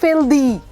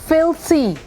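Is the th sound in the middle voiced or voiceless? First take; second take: voiced; voiceless. First: The middle th sound is voiced. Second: The middle th sound is voiceless. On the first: The speaker calls it wrong. "Is not फिल्दी" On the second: The speaker calls it right. "It's फिल्थी"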